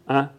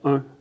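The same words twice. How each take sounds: First: The vowel merges toward the 'in' nasal sound. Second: The vowel keeps its distinct 'un' nasal quality. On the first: "que les Parisiens tentent à prononcer un" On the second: "une prononciation qui s'entend clairement dans les doublages québécois"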